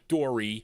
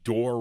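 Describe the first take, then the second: First: The name ends with an 'ee' sound. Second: The name ends with an 'ay' sound. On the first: The speaker calls it wrong. "Not Dory" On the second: The speaker calls it right. "That's how you pronounce it"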